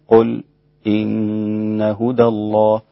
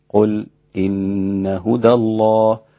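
Both takes have the same delivery.

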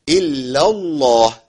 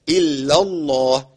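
No difference in how they are said.

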